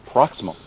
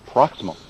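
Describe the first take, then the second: First: One syllable is dropped, S and M merge. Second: The same.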